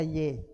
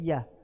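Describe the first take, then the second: First: It is said as the letter name. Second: It is said as the word ya. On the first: The speaker calls it wrong. "jangan dibaca Y" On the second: The speaker calls it right. "tapi ya"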